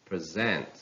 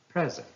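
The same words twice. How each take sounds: First: "present" as pre-ZENT; stress on second syllable. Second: "present" as PREZ-ent, high start; stress on first syllable. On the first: Teacher reading a verb, "present" stressed on ZENT. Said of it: "stress falls on the second syllable". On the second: Teacher reading a noun, "present" stressed on PREZ. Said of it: "stress on the first syllable". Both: Shown as a demonstration.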